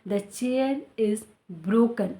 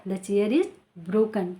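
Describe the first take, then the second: First: Very slow, careful sentence; careful demo; slow model sentence. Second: Said in the usual way. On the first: Shown as a demonstration. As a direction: teach it slowly. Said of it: "teacher models example sentence". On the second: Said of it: "teacher repeats example".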